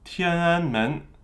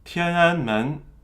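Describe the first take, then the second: No difference in how they are said.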